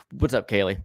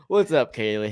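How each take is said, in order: First: Odd delivery. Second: Said in the usual way. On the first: Shown as a demonstration. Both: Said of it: "I don't know why I said it like that".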